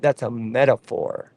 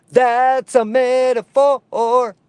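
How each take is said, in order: First: Said in the usual way. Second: Hammed-up slow "That's a metaphor."; drawn-out emphatic repeat. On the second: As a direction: say "That's a metaphor." higher, louder and slow, stretching "metaphor". Repeats the same words with emphasis.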